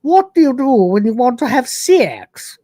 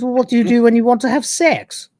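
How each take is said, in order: First: Higher and louder regal voice; fuller regal hostess. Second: Higher, lightly put-on regal voice; coy regal hostess. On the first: Retold or imitated. Hostess asking Rimmer again, higher and louder regal voice. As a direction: say it grander, more arch. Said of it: "Or s-, actually". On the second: Hostess teasing Rimmer about sex, higher put-on regal voice. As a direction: tease him with a regal lilt. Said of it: "She goes".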